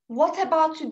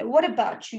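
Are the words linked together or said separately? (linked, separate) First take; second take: separate; linked. First: Each word is pronounced separately and carefully. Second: The words are rounded and run together smoothly. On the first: It is a memorized textbook pattern. The speaker calls it wrong. "bunu mesela what about you diye duymazsınız" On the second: It is how it is normally heard. The speaker calls it right. "Yuvarlarız, oynarız dille"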